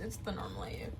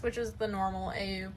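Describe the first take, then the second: First: Low unvoiced whisper of the same words; whispered repeat, said to herself; whispered aside. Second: Said in the usual way. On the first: Real, not acted. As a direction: drop to a breathy whisper for "normal A U".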